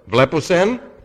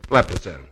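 First: The voice rises at the end. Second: The voice falls at the end. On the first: It asks whether they see. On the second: It states that they see.

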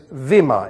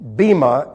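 First: The word begins with a v sound. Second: The word begins with a b sound. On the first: The speaker calls it right. "It is a v sound. So it is vima" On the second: The speaker calls it wrong. "bima is what is normally used because they pronounce the second letter of the Greek alphabet, b"

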